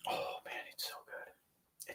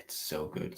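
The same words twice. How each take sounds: First: Awed whisper. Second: Said in the usual way. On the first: Real, not acted. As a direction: breathe it out, savouring. Savouring the perfume, whispers.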